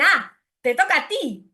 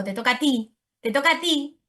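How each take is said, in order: First: Put-on "Ah, te toca a ti" higher, like a small child; mild child voice repeating the phrase; child's literal echo. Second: Said in the usual way. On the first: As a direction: parrot it back as a toddler would. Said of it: "ellos dicen". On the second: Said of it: "Ustedes deben decir tú".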